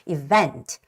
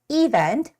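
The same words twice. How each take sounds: First: The stress is on the second syllable. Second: The stress is on the first syllable. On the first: The speaker calls it right. "the stress has to come on the second E" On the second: The speaker calls it wrong. "A lot of Koreans think this word to be said as event"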